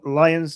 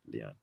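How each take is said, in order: First: The name is said with a final S sound. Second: The name is said without a final S sound. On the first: "it's nicer to say" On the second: "Leon from now on"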